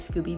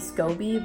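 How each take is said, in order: First: The first vowel sounds like 'oo'. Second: The first vowel sounds like 'oh'. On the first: "I like Scooby better" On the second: "it's only got one O. It might be Scoby"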